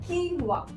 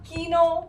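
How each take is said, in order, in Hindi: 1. इसे दो अक्षरों में कहा जाता है, keen-wah। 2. इसे दो अक्षरों में कहा जाता है, kee-no।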